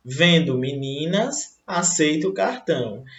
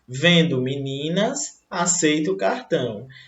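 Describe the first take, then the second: First: There is a pause right after 'meninas'. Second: The same.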